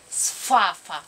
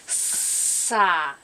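First: An f sound is slipped in after the s. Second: A plain s is followed directly by the vowel. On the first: The speaker calls it wrong. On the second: The speaker calls it right.

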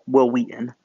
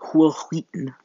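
First: Wheaton starts with a plain w sound. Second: Wheaton starts with a strongly breathed h sound.

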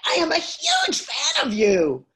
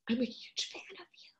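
First: It is said with confident, high status. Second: It is said with meek, low status.

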